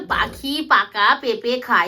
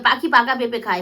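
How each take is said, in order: First: It is said at a slow, ordinary pace. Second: It is said quickly, at speed.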